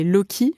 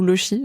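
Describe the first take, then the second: First: "loki" with a hard k sound; hard k pronunciation. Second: "lochi" with a French sh sound; soft sh pronunciation. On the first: Host unsure how to pronounce the medical term, "loki" with hard k. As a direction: say "loki" with a k in the middle. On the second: Host offering the other pronunciation, "lochi" with soft sh. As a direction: say "lochi" with ch as in "chat". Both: Shown as a demonstration. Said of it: "je sais pas comment on prononce".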